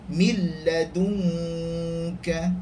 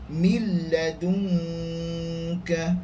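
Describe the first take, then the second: The two takes are said the same way.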